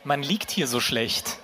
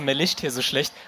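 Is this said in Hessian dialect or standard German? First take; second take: standard; Hessian. First: It is spoken in standard German pronunciation. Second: It is spoken with a Hessian dialect accent.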